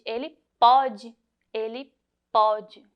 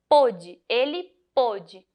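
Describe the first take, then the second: First: "pode" with an open o, like "aw"; present-tense "pode", stretched open first vowel. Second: "pôde" with a closed o, as in "boat"; past-tense "pôde", rounded closed first vowel. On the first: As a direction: say "pode" slowly with a wide, open ó. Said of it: "ele tem um som diferente". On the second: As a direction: say "pôde" slowly with a tight, closed ô. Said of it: "ele é mais fechado". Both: Shown as a demonstration.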